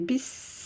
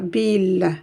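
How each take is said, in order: First: The L sound is replaced by a doubled S. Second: The L sound is clearly pronounced. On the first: The speaker calls it right. "mais bis" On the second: The speaker calls it wrong. "je ne dis pas bil"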